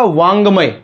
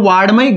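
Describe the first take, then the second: First: The middle consonant is a nasal ng sound. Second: The middle consonant is a d-like sound. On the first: The speaker calls it right. "नाक से ग। तो इसका उच्चारण क्या होगा?" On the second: The speaker calls it wrong. "वार्डमय गलत उच्चारण है"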